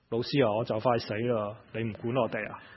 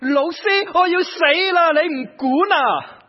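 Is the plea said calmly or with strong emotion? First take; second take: calmly; emotionally. First: The plea is said calmly, with little emotion. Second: The plea is said with strong, desperate emotion. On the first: The speaker calls it wrong. "用这样的语气这样说" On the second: The speaker calls it right. "你可不可以又加一些情感下去啊"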